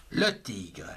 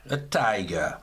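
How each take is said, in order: First: Said in the usual way. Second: "tiger" said the English way as TAI-ger; English pronunciation. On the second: Shown as a demonstration. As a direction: give "tiger" the English vowel and ending. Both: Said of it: "en anglais".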